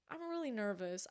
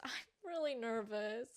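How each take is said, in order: First: Said in the usual way. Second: Laughing through nerves; nervous laugh. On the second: Real, not acted.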